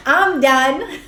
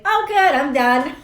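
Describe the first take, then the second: First: "I'm done." through a real laugh. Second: Much higher, louder "Oh, good, I'm done."; bright burst of relief; relieved and chirpy. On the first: Real, not acted. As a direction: giggle the words out. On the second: Retold or imitated. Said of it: "And I'll be like".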